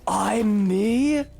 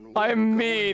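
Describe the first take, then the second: First: It is said in a put-on Jimbo voice. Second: It is said in his own normal voice.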